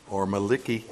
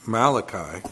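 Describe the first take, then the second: First: Maliki said as MAL-i-kee, not Malachi; mispronounced Malachi. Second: Said in the usual way. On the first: Retold or imitated. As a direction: say Maliki with a short kee ending. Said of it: "as somebody called it once". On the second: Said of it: "or Maliki, as somebody called it once".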